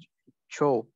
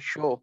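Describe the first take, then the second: First: The word begins with a 'ch' sound. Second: The word begins with an 'sh' sound. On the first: This is how people here say why. "हम सिंधी में यहाँ कहते हैं छो" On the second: This is how the Larkana Sheikhs say why. "तो वो करते हैं शो"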